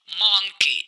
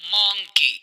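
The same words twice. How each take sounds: The two takes are said the same way.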